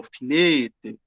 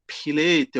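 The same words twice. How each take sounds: First: FILETE begun with an f sound, not p; filete, opening on f. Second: PILETE begun with a p sound, not f; pilete, opening on p. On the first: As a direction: say "filete" slowly as fee-LEH-teh. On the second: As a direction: say "pilete" as pee-LEH-teh. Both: Shown as a demonstration. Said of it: "o filete".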